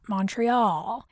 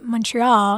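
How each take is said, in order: First: It is said with an American pronunciation. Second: It is said with a Canadian pronunciation. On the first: The speaker calls it wrong. "not Montreal" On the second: The speaker calls it right. "I say Montreal"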